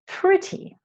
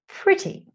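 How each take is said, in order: First: The t in the middle is a clear t. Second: The t in the middle is a clear t.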